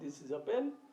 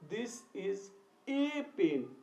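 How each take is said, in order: First: The article is a short, weak 'uh' sound. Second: The article is a full, emphasized 'ay' sound. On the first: It simply states that this is a pen. "Generally हमें ये कहना है कि यह एक कलम है" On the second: It insists that this is one pen. "इसी बात को जोर देकर कहना है"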